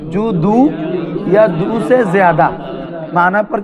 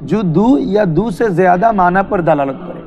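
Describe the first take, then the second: First: "জু দু ... ইয়া দু সে জিয়াদা" in separate chunks, pausing after each; feed "জু দু" and "ইয়া দু সে জিয়াদা" phrase by phrase for a class to repeat; prompting for repetition. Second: Said in the usual way. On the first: Shown as a demonstration. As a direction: dictate "জু দু, ইয়া দু সে জিয়াদা" firmly, with gaps between phrases. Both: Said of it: "বলো".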